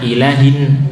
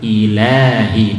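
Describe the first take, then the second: First: The 'la' vowel is cut too short. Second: The 'la' vowel is held for two beats. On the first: The speaker calls it wrong. "Atau tidak panjang, ... ini juga salah" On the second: The speaker calls it right. "dua harokat"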